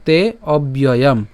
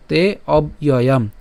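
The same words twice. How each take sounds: First: Slow তে অব্যয়াম with b linked, "te obyoyam"; joined together. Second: Slow তে অব্যয়াম split as "te, ob, iyoyam"; broken into parts. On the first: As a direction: run "ob" into "yoyam" in অব্যয়াম. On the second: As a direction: pause after "ob" in অব্যয়াম. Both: Shown as a demonstration. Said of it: "ভেঙে উচ্চারণ করলে".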